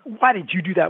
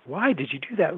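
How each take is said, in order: First: It is said in an accusing, angry tone. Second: It is said in a curious, gentle tone.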